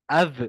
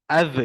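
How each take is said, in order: The two takes are said the same way.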